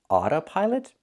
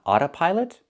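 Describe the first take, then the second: Both takes have the same delivery.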